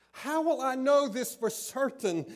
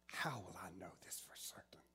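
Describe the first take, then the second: First: Put-on a stubborn old man insisting on proof; loud insistent demand. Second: Put-on a hushed, disbelieving old man asking; doubting whisper. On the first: Zacharias loudly pressing the angel for proof. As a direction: call it out higher and louder, pressing for proof. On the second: Zacharias whispering his doubt to the angel. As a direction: whisper the doubting question fast and low.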